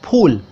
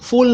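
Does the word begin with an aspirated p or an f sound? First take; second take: aspirated p; f sound. First: The word begins with an aspirated p sound. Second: The word begins with an f sound. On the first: The speaker calls it right. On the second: The speaker calls it wrong.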